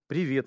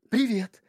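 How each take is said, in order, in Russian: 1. Приветствие произнесено просто и естественно. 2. Приветствие произнесено наигранно, с преувеличением. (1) "не надо играть. Просто же упражнение самое простое. Просто поздороваться" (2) "А люди начинают... Начинается вот эта вот хрень"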